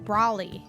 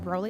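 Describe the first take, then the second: First: The name rhymes with the word trolley. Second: The name sounds like the Dragon Ball character's name. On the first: "Trolley, like trolley" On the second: "Like, Dragon Ball Z Broly?"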